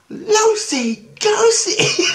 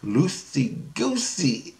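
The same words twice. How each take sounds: First: Very high, loud, drawn-out squeal; squeaky kid stretching out both words; mimicked little kid. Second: Slow, stretched-out syllables; measured, drawn-out reveal in a mostly usual pitch; teaching a silly word. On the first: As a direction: shriek it back like a delighted child. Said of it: "She goes". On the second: Retold or imitated. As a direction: draw out LOOSEY GOOSEY for a child.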